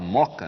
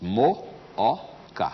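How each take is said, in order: First: The two o sounds merge into one syllable. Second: The two o sounds are split into separate syllables. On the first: "a gente fala Moca, né? Porque a gente já fundiu os dois Os" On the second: "São três sílabas"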